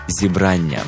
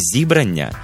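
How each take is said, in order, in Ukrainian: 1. Наголос на другому складі. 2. Наголос зсувається з другого складу. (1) "а саме «зібрання». Наголос на другому складі" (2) "Не «зібрання»"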